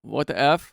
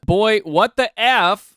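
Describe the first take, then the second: First: Said in the usual way. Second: Higher, louder, slowed-down what the F, F drawn out; exasperated disbelief. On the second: Shown as a demonstration. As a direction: lean into the disbelief, stretch it slowly.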